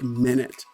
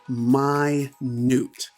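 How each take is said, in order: First: It sounds like the time word minute. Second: It does not sound like the time word. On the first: It is the unit of time. The speaker calls it wrong. "It doesn't sound like minute" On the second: It means very small. The speaker calls it right. "The pronunciation is actually minute"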